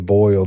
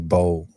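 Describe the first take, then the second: First: The vowel is the standard 'oy' sound. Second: The vowel is an 'oh' sound, like 'bowl'. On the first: This is how it is said elsewhere. The speaker calls it wrong. "you don't say boil down here" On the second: This is how it is said locally. The speaker calls it right. "you say bowl"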